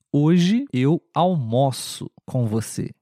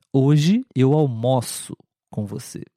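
First: Almoço with an open o. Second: Almoço said again with an open o. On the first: Teacher reads the verb sentence aloud. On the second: Teacher repeats the verb sentence for students. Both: Shown as a demonstration. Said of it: "um pouquinho mais aberto".

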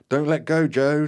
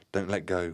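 First: High, very loud urgent shout; roared command. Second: Understated plea at ordinary volume; mild trembling plea. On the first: Terry urges Joe to keep hold, roaring. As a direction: roar it back urgently. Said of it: "Terry roared back at me". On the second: Cheska pleads while holding hands, mild trembling plea. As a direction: plead gently, a touch of tremble. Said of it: "pleaded with a trembling voice". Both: A narrator's reading.

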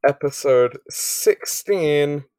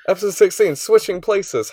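First: Slow, unsure reading of the title; drawn out while looking it up; slow hesitant reading. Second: Higher, louder host announce of the title; confident announcement. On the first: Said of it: "Opens notes to check name of episode". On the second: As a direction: proudly announce the episode name. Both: Real, not acted.

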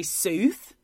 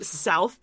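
First: Sooth said with a long oo, like soothe without the th buzz; mock Canadian sooth. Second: South said the standard way, rhyming with mouth; plain south. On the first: Hosts mocking the Canadian accent, saying sooth. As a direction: stretch south into sooth, a light Canadian joke. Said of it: "they say sooth". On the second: Shown as a demonstration. Hosts comparing Canadian vowels, south said normally. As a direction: give south its ordinary ow sound. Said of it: "instead of saying south".

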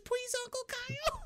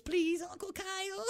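First: Put-on much higher, tiny baby's pleading voice; baby begging. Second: Put-on higher, small child's pleading voice; little boy begging. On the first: Baby spits out pacifier to beg Uncle Kyle, very high baby voice. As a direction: plead like a toddler just off the pacifier. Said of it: "the baby pops out his pacifier". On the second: Little son begs Uncle Kyle to let the family stay, high childish plea. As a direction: beg sweetly like a little kid. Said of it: "the little Cartman boy, he goes".

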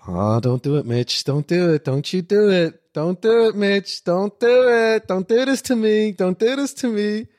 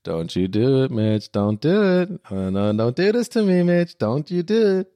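First: Flehend, immer lauter und höher; beschwörend, am Ende laut und langsam; pleading, building to a shout. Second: Leise flehend nachgespielt; beschwörend wiederholt; pleading replay. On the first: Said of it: "sag ich so". (flehender Ruf, immer lauter) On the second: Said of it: "diesen schönen Moment mit Mitch". (flehend, gedehnt) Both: Retold or imitated.

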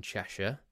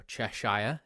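First: Said in the usual way. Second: Cheshire with a full "shyer" ending; American pronunciation. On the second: Shown as a demonstration. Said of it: "if you're American".

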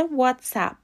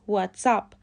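First: واتساپ said 'WOTS-app', short a as in 'app'; 'what's-app' for واتساپ, open short a at the end; correct WhatsApp pronunciation. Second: واتساپ said like English 'what's up'; 'wots-UP' for واتساپ; what's up pronunciation. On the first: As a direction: model واتساپ ending in English 'app'. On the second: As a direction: end واتساپ in 'up', as in the greeting. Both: Shown as a demonstration.

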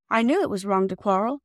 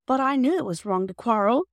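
First: Said in the usual way. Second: Tearful, higher and louder plea; in tears. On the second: A narrator's reading. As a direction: near tears, pleading. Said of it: "said Bobby in tears".

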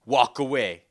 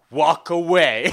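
First: Firm, louder warning at normal pitch; mock-stern order, held in check; retold super serious. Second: Slow, much louder warning; imitating a stern, forceful dismissal; retold super serious. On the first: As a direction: imitate a dead-serious dismissal. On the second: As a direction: draw it out as a loud mock threat. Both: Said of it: "super serious".

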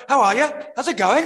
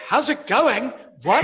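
First: High, loud mock Liverpudlian greeting; Liverpudlian accent. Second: High-pitched, mock-baffled echo of the accent; retold astonishment. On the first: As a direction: imitate a lilting Liverpudlian hello, pitched way up. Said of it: "she had that Liverpudlian accent". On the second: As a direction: repeat it back in comic disbelief, voice shooting up. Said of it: "And I'm like".

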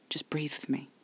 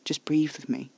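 First: Hushed, whispery reassurance; quiet repeat. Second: Calm, gentle coaxing; smooth and quiet. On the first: Caspar with a hand on Alfie's neck, hushed and soothing. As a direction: coax very softly, almost whispering. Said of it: "he repeated". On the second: Caspar calming Alfie's panic attack, smooth and quiet. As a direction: soothe them, keeping it quiet. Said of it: "smoothly, quietly". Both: A narrator's reading.

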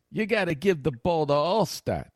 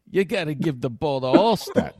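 First: Slow, higher, insistent mimicry of a reporter; a touch of Ira pestering the coach; Gruden doing Ira. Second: Higher, pushy reporter impression at a normal pace; a light nagging impression; Gruden doing Ira. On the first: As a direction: drag it out as a pushy reporter impression. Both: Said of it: "That's how he's doing Ira".

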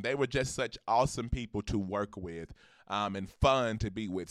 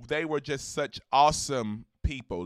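First: Taking it slower and more deliberate; slower, calmer restatement; slowed down. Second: Said in the usual way. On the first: Real, not acted. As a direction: rein yourself in and say it carefully. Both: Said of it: "Let me slow down".

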